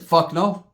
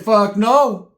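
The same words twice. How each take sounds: First: Said in the usual way. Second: Higher, louder flat no; repeating the refusal to his homie, louder and higher; louder retold refusal. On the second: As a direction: slam the refusal down harder. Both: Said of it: "I said".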